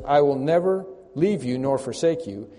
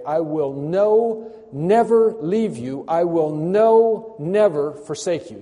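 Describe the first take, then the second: First: Said in the usual way. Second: "no" and "never" drawn out slow and loud; slow, emphatic declaration with "no" held long; stress on NO NEVER. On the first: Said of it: "I don't like the translation when it says". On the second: Shown as a demonstration. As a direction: hammer "no, never" word by word. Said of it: "it's actually a better rendering to say".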